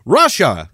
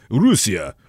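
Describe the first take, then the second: First: Russia said as "Rush-a", a bit louder; anglicized pronunciation. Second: Russia said as "Roo-see-a"; Russian pronunciation. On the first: English listener mangling the word Russia. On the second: Russian answering where he's from, pronounced natively. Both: Shown as a demonstration. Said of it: "I did not say Russia".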